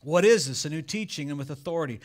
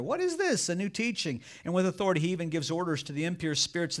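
First: Said in the usual way. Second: Amazed crowd. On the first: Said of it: "it says". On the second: Acted. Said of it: "they asked each other".

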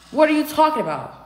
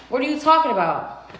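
No difference in how they are said.

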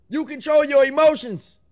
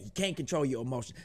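First: Higher and louder, stress on YOUR; loud emphatic declaration. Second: Much softer and fast, tossed off under the breath; quick low aside. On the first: Reactor hammering his anger lesson to viewers, loud emphatic declaration. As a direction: drive the point home like a coach. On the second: Reactor undercutting his own lesson, quick low aside. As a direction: undercut it in a rushed throwaway. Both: Real, not acted.

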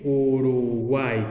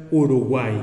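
First: "Uruguay" drawn out slowly and lower, "u-ru-guay"; slow sounding-out. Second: Said in the usual way. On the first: Shown as a demonstration. Teacher demonstrates the triphthong to students, slow sounded-out "Uruguay". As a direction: stretch "Uruguay", holding "guay" as one long syllable. Teacher drawing out the example word.

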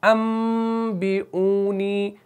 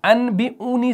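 First: अम with a long held nasal m; very slow, hum the m of अम before बी; iqlab with ghunna. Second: अन with a plain n, higher and slow; written form demo. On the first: Teacher shows learners the reading, drawn-out nasal m in अम. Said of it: "यहाँ पर गुन्ना भी होगा". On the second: Teacher contrasts the written form, clear n in अन. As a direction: spell out अन बी ऊनी slowly with an n. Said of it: "ये ऐसे पढ़ा जाएगा". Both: Shown as a demonstration.

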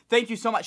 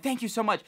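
First: Higher, louder burst of thanks; overjoyed relief; gushing thanks. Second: Higher, bright repeated thanks; grateful again; gushing thanks. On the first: Let through the closed gate, he thanks the manager in overjoyed relief. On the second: Thanking the manager again, with high grateful relief. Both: Retold or imitated.

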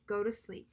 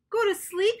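First: Said in the usual way. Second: High, loud excited shout; hammed-up happy shout. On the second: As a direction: Toad shouts in delight. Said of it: "shouted Toad".

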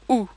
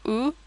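First: "oo" as a very rounded French vowel. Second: "oo" as in English, less rounded, rising at the end; English double O. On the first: Teacher corrects the English sound for learners, rounded French oo. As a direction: say "oo" with rounded lips, not English. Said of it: "It's very rounded". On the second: Teacher shows learners the sound to avoid, English-style oo. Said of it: "It's not like the English double O". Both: Shown as a demonstration.

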